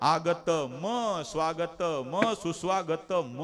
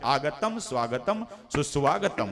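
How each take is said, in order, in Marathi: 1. प्रत्येक शेवटच्या म नंतर स्वर आहे. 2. प्रत्येक शेवटचा म स्वराशिवाय आहे. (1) "त्यात जर स्वर टाकला तर" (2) "अलगद उच्चार"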